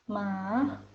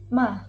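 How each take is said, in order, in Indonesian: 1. Nadanya mulai rendah, turun sedikit, lalu naik. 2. Nadanya turun tajam dari tinggi ke rendah. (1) "dimulai dari nada setengah rendah, kemudian naik ke nada setengah tinggi" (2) "dimulai dari nada tinggi, kemudian langsung turun ke nada rendah"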